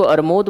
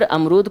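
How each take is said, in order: First: अरमूद as "ar-mood", r before m; child's mispronunciation. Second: Said in the usual way. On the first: Retold or imitated. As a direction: say अरमूद with m and r swapped. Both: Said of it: "अब बच्चा अगर अमरूद को अरमूद बोल रहा है".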